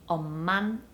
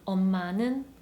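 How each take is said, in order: First: The ending shrinks to a single n sound. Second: The ending is a full syllable, neun.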